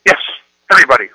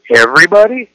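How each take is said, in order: First: Loud, flat insistence on everybody; a teen digging in her heels; insistent daughter. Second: Everybody? loud with a high rising tune; questioning intonation. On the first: Retold or imitated. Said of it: "my daughter says". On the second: Shown as a demonstration. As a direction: challenge her with a rising Everybody?. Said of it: "one is intonation".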